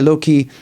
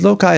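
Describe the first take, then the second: First: It is said with the 'low-key' ending. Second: It is said without the 'low-key' ending.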